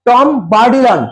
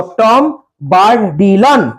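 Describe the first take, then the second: First: Said in the usual way. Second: টম বার্ডিলন said slowly, every syllable laid out; careful pronunciation. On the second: Shown as a demonstration. Teacher models the name for students, slow and careful. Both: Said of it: "উচ্চারণ দেখবো".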